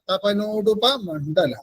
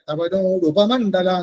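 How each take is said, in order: First: The break comes before 'mandala'. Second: The break comes before 'upa'. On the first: Salutation to her who wears the sun and moon as earrings. The speaker calls it right. "അപ്പോഴാണ് സൂര്യചന്ദ്രന്മാരെ കമ്മലാക്കിയവൾക്ക് നമസ്കാരം എന്നർത്ഥം വരും" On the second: The meaning of the phrase is lost. The speaker calls it wrong. "തപനോട് ഉപമണ്ഡല എന്ന് പറഞ്ഞ ഉപമണ്ഡലന്റെ അർത്ഥം മാറി"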